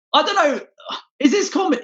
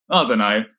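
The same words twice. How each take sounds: First: "I don't know" jumped up high and squeaky. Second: Said in the usual way. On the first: Shown as a demonstration. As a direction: squeak the line up high, mock clueless.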